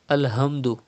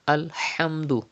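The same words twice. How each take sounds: First: The h is a light, ordinary h sound. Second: The h comes from deep in the throat. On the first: The speaker calls it wrong. "Do not say Alhamdu" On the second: The speaker calls it right. "but it is Alhamdu"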